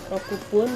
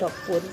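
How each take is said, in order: First: The full number is said before pun. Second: The number shortens into a doubled consonant before pun.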